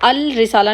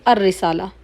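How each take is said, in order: First: The L of the article is clearly pronounced. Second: The L merges into a doubled R sound. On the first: The speaker calls it wrong. "अल रिसाला नहीं" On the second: The speaker calls it right. "अलिफ directly रॉ के साथ मिलेगा"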